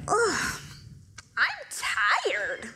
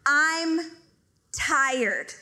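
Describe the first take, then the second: First: Lightly voiced stretching husband; a hint of a groggy husband waking up; mock tired husband groan. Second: I'm tired spaced out word by word; mock deliberate husband; slow emphatic repeat. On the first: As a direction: yawn it out like a lazy husband. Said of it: "You're like". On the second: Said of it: "He said".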